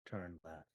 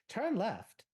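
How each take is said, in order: First: It is said flat and soft, almost murmured. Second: It is said with a little pep and lift. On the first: The personality has been drained away. "Lifeless monotone. ... almost border A S M R" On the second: It sounds like a normal assistant voice. "Even Siri has like a little bit of a pep"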